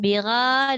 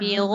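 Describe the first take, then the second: First: The r is light, with a bright a vowel. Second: The r is heavy, with a dark o-like vowel. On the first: The speaker calls it wrong. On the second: The speaker calls it right.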